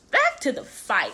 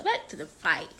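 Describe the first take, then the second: First: Much higher, playful announcement; high-pitched repeat. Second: Said in the usual way. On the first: Real, not acted. Repeats it to resume story.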